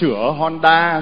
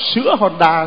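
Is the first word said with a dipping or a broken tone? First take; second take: dipping; broken. First: The first word has a dipping-rising tone. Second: The first word has a broken-rising tone. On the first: A shop that repairs motorbikes. The speaker calls it right. "trời ơi sữa Honda sữa điện tử" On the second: A kind of milk called Honda. The speaker calls it wrong. "mà bà đọc là sữa Honda"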